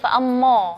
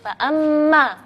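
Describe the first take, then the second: First: The final long vowel is heavy and rounded. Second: The final long vowel is light and thin. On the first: The speaker calls it wrong. "nggak boleh bacanya fa'ammo, nggak boleh" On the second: The speaker calls it right. "maka di situ alifnya kita bacanya tipis"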